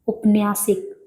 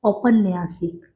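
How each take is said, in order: First: The word begins with a short 'u' vowel. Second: The word begins with an 'au' vowel. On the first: The speaker calls it wrong. "उपन्यासिक गलत है" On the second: The speaker calls it right. "सही क्या है?"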